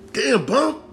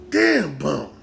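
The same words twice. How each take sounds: First: Very high, rising disbelief; astonished squeal at a reckless pal; incredulous exclamation. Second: Exclamation falling away in pitch; impressed disbelief. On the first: Fan to Bumpy over his new beef, incredulous and high. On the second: Fan to Bumpy over his new beef, impressed with falling tune. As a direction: let the amazement sink down, nearer a normal pitch. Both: Pretend.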